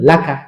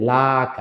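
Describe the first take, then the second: First: The vowels are short and said quickly. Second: The vowels are stretched out slowly. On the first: The speaker calls it right. "টান দেওয়া যাবে না কারণ হারাকাতের উচ্চারণ তাড়াতাড়ি বলবেন" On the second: The speaker calls it wrong. "এরকম একটা টান হবে"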